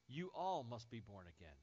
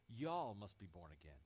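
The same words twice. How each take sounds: First: Said in the usual way. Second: "Y'all" as a single Texan syllable, jɔl; Texas y'all. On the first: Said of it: "That's plural you". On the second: Retold or imitated. Preacher restating Jesus' plural you, Texan "Y'all". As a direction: give "Y'all" a Southern one-word sound. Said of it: "That's how they say it in Texas".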